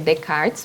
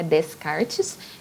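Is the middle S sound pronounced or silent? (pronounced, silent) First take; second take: silent; pronounced. First: The S in the middle is silent. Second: The S in the middle is pronounced. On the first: The speaker calls it right. "a gente não pronuncia o S no, no que aparece no meio" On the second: The speaker calls it wrong. "então não é Descartes"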